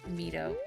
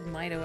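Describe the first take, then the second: First: The name is said with Japanese-style vowels. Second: The name is said with English-style vowels. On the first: This follows the original language's vowel sounds. "I'm just going by Japanese vowel sounds" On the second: This is the way it has usually been said. "I think I've always said Mito"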